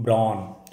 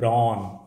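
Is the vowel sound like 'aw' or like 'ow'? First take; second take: aw; aw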